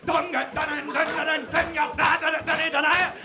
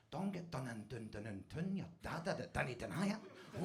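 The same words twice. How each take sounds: First: High, shouted rhythmic chant; loud, excited chanting; fully into it. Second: Very soft, low rhythmic chant; hushed, private groove on the words; getting into it. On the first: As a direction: belt the words out like a rave hook. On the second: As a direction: murmur it under the breath like a beat. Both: Retold or imitated. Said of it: "I start getting into it".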